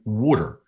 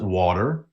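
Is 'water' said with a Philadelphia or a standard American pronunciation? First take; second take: Philadelphia; standard American. First: Water is said with a Philadelphia pronunciation. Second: Water is said with a standard American pronunciation. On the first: "in Philadelphia, we pronounce it water" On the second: "The rest of the country calls it water"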